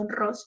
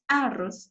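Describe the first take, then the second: First: The stress is on the second syllable. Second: The stress is on the first syllable. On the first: The speaker calls it right. "es la sílaba tónica" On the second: The speaker calls it wrong. "entonces vendría a ser la sílaba tónica la A"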